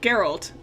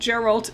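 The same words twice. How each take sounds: First: The name is pronounced the Polish way. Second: The name is pronounced the English way. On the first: "that's the Pol Polish one" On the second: "but Geralt is also good"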